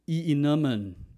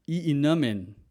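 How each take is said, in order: Both takes have the same delivery.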